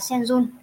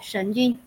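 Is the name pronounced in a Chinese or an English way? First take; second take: English; Chinese. First: The name is pronounced the English way. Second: The name is pronounced the Chinese way. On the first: "Đọc tiếng Anh thì là Shen Jun" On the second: "còn đọc tiếng Trung thì sẽ đọc là Shen Jun"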